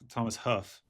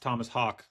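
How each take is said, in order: First: The surname ends with an F sound. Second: The surname ends with a hard G sound. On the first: The speaker calls it wrong. "I pronounced Thomas Hawk, Thomas Huff, because I forgot it" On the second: The speaker calls it right. "It's the hard G"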